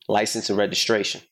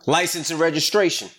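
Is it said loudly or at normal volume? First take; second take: normal volume; loudly. First: It is said at normal volume. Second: It is said loudly.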